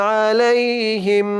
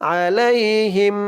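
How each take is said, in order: The two takes are said the same way.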